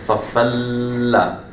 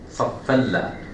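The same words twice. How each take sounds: First: The merged sound is held too long. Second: The merged sound is held briefly, one beat. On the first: The speaker calls it wrong. "I don't say" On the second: The speaker calls it right. "the correct way of saying it"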